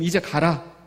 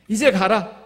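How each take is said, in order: First: It is said in standard Korean. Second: It is said with a Gyeongsang dialect accent.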